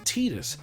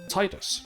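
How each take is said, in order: First: The first syllable sounds like 'tee', as in 'tedious'. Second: The first syllable sounds like 'tide'. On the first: The name evokes the word tedious. "I started calling him Tidus because he's fucking tedious" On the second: The name evokes the tide of the sea. "the British in me wants to go Tidus, because, you know, tide as in the water"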